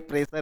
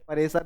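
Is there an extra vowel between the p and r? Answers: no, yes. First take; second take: no; yes. First: The p and r form one cluster. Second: An extra vowel splits the p and r. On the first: The speaker calls it right. "प्रेशर है ये" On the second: The speaker calls it wrong. "अरे परेसर नहीं है"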